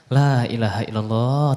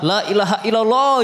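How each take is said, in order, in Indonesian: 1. Diucapkan dengan nada tenang dan sabar. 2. Diucapkan dengan nada kesal dan mengeluh. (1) "versi tabah ketika dapat masalah" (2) "jangan ditiru"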